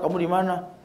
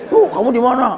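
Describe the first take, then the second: First: It is asked as a calm question. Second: It is said in an angry tone.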